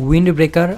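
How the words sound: Wind has a short i vowel sound. "American ইংরেজি অনুযায়ী"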